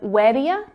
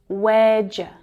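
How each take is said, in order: First: Each word is said separately and fully. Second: The words are contracted into a shortened form. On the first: "Instead of where do you"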